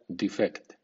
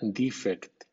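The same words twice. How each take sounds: First: The stress is on the second syllable. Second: The stress is on the first syllable. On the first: It is used as a verb. "cuando es verbo suena defect" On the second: It is used as a noun. "es sustantivo, suena defect"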